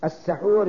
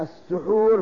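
First: "السحور" with short a after س; fatha on sīn. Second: "السحور" with short u after س, slowly; damma on sīn. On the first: Teacher defining what is eaten, fatha on س in "السحور". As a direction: say "السحور" as as-saḥūr. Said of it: "السحور بالفتح". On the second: Teacher defining the act of eating, slow damma on س in "السحور". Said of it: "السحور بالضم". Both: Shown as a demonstration.

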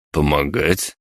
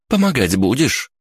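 First: Incredulous. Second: Higher-pitched, insistent question; demanding. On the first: Companion asked to help answers, incredulous. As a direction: query it back with mild disbelief. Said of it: "недоверчиво спросил я". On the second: Girl turns on the idle onlooker, demanding. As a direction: press your companion to pitch in. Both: A narrator's reading.

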